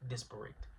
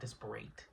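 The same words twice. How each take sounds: First: The last syllable sounds like 'it'. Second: The last syllable sounds like 'ate'. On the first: The speaker calls it right. "this one is an adjective, so it's disparate" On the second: The speaker calls it wrong. "It's not disparate"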